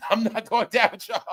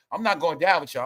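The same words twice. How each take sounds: First: Laughing. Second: Said in the usual way. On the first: Shown as a demonstration.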